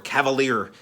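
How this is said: The name is said with an American accent.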